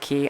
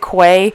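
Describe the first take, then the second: First: The word is said like 'key'. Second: The word is said like 'kway'. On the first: The speaker calls it right. "I should have said key" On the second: The speaker calls it wrong. "I said quay"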